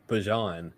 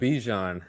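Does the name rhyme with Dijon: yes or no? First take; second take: no; yes. First: The name does not sound like Dijon. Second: The name sounds like Dijon mustard. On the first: The speaker calls it right. "It's Bajan" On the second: The speaker calls it wrong. "it's not Bijan. It's not it's not Bijan mustard"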